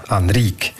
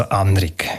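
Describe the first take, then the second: First: "Anrique" stressed on the final "rique", with a long i; stress on second syllable. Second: "Anrik" stressed on the opening "An", short final syllable; stress on first syllable. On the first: Expert demonstrates the old Romansh name, "Anrique" with end stress. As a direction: say "Anrique" as an-RIIK, weight on the end. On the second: Expert shows today's Germanised name, "Anrik" with first-syllable stress. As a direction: say "Anrik" as AN-rik, weight up front. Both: Shown as a demonstration. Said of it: "die Betonung wieder auf die erste Silbe zurückverlegt".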